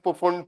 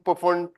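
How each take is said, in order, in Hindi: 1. शुरू का p बोला जाता है। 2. शुरू का p बोला जाता है।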